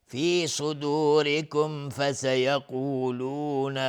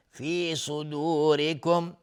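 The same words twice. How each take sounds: First: Slow chant, "صدورکم" joined straight to "فسیقولون"; passing on without stopping. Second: "صدورکم" chanted and closed on a silent m; stopping on the word. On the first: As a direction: link the clear m of "صدورکم" into "فسیقولون" without a pause. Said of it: "اگر عبور بکنیم". (وصل «صدورکم» به «فسیقولون» بدون مکث) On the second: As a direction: end "صدورکم" cleanly as at a stop. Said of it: "اگر توقف بکنیم بگیم". (وقف روی میم ساکن «صدورکم») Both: Shown as a demonstration.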